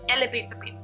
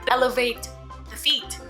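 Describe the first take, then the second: First: The word 'feet' begins with a p sound. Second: The word 'feet' begins with an f sound. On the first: "but instead she said like elevate the feet" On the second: "said like elevate the feet"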